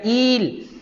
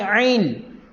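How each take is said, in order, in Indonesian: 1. Ia dimulai dengan hamzah biasa. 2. Ia dimulai dengan bunyi ain yang dari kerongkong. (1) "Bukan il" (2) "tapi ail"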